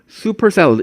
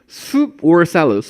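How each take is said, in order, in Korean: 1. soup과 or는 붙어서 super처럼 들려요. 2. soup과 or는 따로따로 발음해요.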